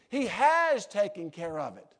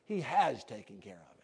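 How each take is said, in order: First: Firm, louder preaching with HAS punched; emphatic HAS. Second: Low, hushed, tender assurance; loving. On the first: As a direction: drive home "has" with a strong, raised stress. Repeats the gentle line emphatically. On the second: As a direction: say it gently and lovingly, voice dropped low. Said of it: "as lovingly as I know how to say". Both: Real, not acted.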